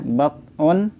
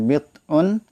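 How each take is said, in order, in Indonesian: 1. Suku kata pertama memiliki vokal 'a'. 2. Suku kata pertama memiliki vokal 'i'. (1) "boleh dibaca bat'un yaitu dengan fathah ba" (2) "boleh dibaca bid'un kasroh ba"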